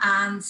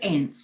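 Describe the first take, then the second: First: It imitates the other person's pronunciation. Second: It uses the speaker's own accent. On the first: "you say aunts" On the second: "and I say ants"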